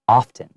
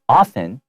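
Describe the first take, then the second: First: The T sound is clearly pronounced. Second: The T sound is silent. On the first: "some people do say it with the T" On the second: "very oftenly you can't hear that T"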